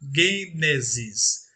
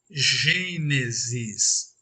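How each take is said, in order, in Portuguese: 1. O primeiro som é um g forte. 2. O primeiro som é um zh suave e prolongado. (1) "em grego, leríamos" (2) "aquele som arrastado como se lêssemos"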